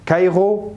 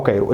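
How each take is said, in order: First: كايرو with a throaty gh, "kaygho"; back-of-the-throat R in كايرو; guttural R variant. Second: كايرو with a tapped R, "kayro"; front-of-the-mouth R in كايرو; tongue-tip R variant. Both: Shown as a demonstration. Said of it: "الاتنين صح".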